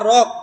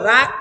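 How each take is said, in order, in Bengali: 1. স্বরটি ভারী ও গাঢ়। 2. স্বরটি চিকন ও খোলা। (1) "না রক" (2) "রাক না"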